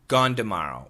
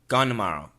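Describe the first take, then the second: First: Tomorrow begins with a D sound. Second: The N of gone replaces the T sound. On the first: "With the D sound. Gone d. This is not a flap T, everybody. It's just a D" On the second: "Gone n n"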